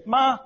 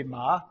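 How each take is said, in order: First: MA held high and level; first tone. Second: MA started low, lifting upward; second tone. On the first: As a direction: say ma on one high note. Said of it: "ma first tone is mother". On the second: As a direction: say ma low and rising. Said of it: "it means four different things". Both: Shown as a demonstration.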